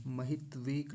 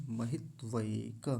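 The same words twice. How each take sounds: First: 'महित्वेक' with plain 've' and clipped k; mistaken ए. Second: 'महित्वैक' slowly, with long 'vai'; full ऐ sound. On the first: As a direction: say 'महित्वेक' quickly as ma-hit-vek. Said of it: "महित्वेक नहीं". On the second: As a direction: stretch ma-hit-vai-ka in 'महित्वैक'. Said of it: "ऐ की मात्रा है". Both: Shown as a demonstration.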